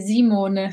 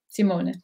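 First: The name begins with a z sound. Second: The name begins with an s sound. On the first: "they put a Z instead of the S. They say Simone" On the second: "the way the Dutch people would pronounce it would be Simone"

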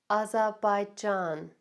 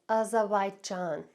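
The two takes are said the same way.

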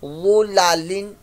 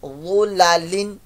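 No difference in how they are said.

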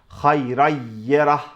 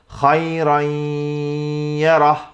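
First: The doubled y is said without nasal sound. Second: The doubled y is said with nasal sound. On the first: The speaker calls it wrong. "Tamamen şeddeli bir ya harfi olarak hayrayyerah demiyorum" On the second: The speaker calls it right. "genizden de ses getirerek şöyle söylüyorum"

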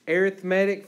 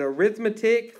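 First: The stress is on the third syllable. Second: The stress is on the second syllable. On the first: It is used as an adjective. "arithmetic for an adjective" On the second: It is used as a noun. "arithmetic for a noun"

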